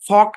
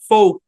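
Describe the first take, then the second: First: The vowel is said short. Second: The vowel is said long. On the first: The speaker calls it wrong. "ফক না" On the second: The speaker calls it right. "ওটা long sound দিবে"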